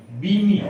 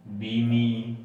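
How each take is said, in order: First: बीमी said loud and high, spelled out; बीमी, each sound joined, said firmly; sounding out the word. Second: Said in the usual way. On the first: Shown as a demonstration. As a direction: call out बीमी clearly, like a teacher blending sounds. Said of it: "तो क्या बी मैं और ई". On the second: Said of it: "ये क्या बन जाता".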